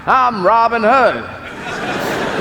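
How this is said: It is said in an American accent.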